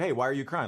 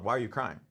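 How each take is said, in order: First: Sincere, mildly concerned retold question; genuine question. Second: Low-key, unsympathetic retold question. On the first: Dad checking on his crying son, genuinely asking. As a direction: ask it as an honest, open question. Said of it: "just a genuine question". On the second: Dad to his crying son on the grass, unsympathetic. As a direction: ask it like an insensitive dad, understated. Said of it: "that made it sound like I was being".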